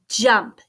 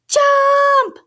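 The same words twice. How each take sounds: First: The word is spoken at normal volume. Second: The word is shouted loudly. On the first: "can we say it?" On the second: "Can we shout it?"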